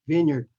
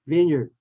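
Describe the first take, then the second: No difference in how they are said.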